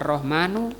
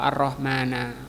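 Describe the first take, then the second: First: The word ends in the vowel u. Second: The word ends in the vowel a. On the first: "tidak boleh dibaca Ar-Rahmanu" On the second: "atau Ar-Rahmana"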